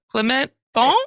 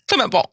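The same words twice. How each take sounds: First: The name is said slowly and hesitantly. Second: The name is said quickly in one burst. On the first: "trying to pronounce the things was like" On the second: "say it really fast"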